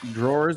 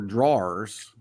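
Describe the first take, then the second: First: The word is said in a general American accent. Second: The word is said in a Southern US accent.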